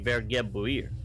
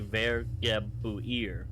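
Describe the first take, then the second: First: The word is said quickly and run together. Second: The word is said slowly, syllable by syllable. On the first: The speaker calls it right. "trying to say them fast" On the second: The speaker calls it wrong. "it's not going to be"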